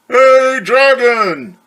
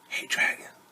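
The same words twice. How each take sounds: First: It is shouted very loudly. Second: It is whispered very softly.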